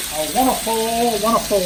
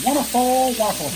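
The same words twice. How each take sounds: First: A light lilt savoring each wonderful. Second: Bandleader's lilting Wonderful, much higher on the first wonderful. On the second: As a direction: mimic a TV bandleader's catchphrase, lightly. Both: Retold or imitated. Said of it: "There's my [name] quote".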